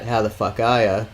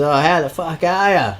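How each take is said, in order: First: Said in the usual way. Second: High-pitched mock call-out; retold yell. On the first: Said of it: "He didn't yell out". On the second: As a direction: imitate a guy calling out to someone in a car. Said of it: "he yells out at this chick".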